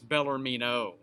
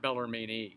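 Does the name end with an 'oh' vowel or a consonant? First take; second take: oh vowel; consonant. First: The name ends with an 'oh' vowel. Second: The name ends with an 'n' consonant. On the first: The speaker calls it right. "It's Bellarmino" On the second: The speaker calls it wrong. "Not Bellarmine"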